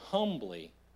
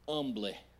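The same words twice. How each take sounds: First: The word begins with an audible h sound. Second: The word begins without an h sound.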